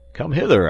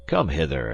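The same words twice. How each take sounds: First: Loud, impatient summons; commanding call. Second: Said in the usual way. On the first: Acted. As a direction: come hither called high and loud. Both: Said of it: "I say".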